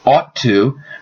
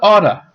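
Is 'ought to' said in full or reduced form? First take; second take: full; reduced. First: Both words are said fully and separately. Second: The words blend into one reduced word.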